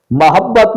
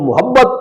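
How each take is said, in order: First: محبت opening on "ma", "mahabbat"; short a on the meem in محبت; درست تلفظ. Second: محبت opening on "mu", "muhabbat"; short u on the meem in محبت; غلط تلفظ. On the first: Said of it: "میم پر زبر کے ساتھ". (محبت، میم پر زبر کے ساتھ) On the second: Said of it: "میم پر پیش کے ساتھ". (محبت، میم پر پیش کے ساتھ) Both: Shown as a demonstration.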